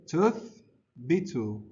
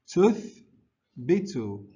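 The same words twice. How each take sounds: The two takes are said the same way.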